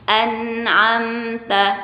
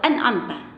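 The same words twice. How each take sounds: First: The n is held partly, neither stopped nor flowing. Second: The n flows on freely without stopping. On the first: The speaker calls it right. "dia harus tawasud" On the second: The speaker calls it wrong.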